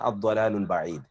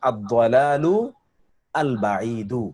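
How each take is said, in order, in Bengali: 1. দুটি শব্দ মিলে একটি হয়ে যায়। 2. প্রতিটি শব্দ পুরোপুরি আলাদাভাবে বলা হয়। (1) "যখন এটাকে মিলাতে যাবেন" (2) "অরিজিনাল উচ্চারণ"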